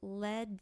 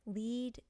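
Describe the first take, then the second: First: The vowel is short, as in 'bed'. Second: The vowel is long, as in 'need'. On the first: It names the metal. "So lead, the element, is going to be a noun" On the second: It means to guide. "Lead is a verb"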